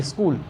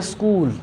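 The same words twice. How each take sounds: First: स्कूल said quickly with a short u; quick short vowel. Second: स्कूल with the कू held longer; long vowel. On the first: Teacher contrasts two spellings, स्कूल said short and quick. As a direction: pass fast over the कू in स्कूल. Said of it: "इसमें बोलेंगे तो जल्दी". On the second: Teacher contrasts two spellings, स्कूल with drawn-out vowel. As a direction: give extra time to the u in स्कूल. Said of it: "इसमें थोड़ा सा समय देंगे". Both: Shown as a demonstration.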